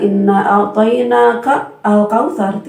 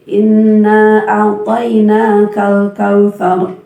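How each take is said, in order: First: A'tainaka and al-kautsar said apart; wrong split reading. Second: A'tainakal kautsar linked, slow and chanted; correct joined reading. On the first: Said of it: "tidak dibaca". (dipisah salah) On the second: (disambung benar) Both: Shown as a demonstration.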